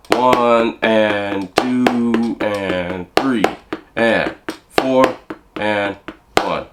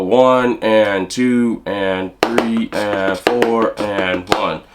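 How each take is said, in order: First: Very slow, stretched counting with long gaps; slower count. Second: Slow, spaced-out counting in time. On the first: Drum teacher recounting the bar slower for students. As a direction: drag each count out even slower. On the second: Drum teacher counting the bar slowly for students. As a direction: count it out slowly over the beat. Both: Shown as a demonstration. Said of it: "a little slower".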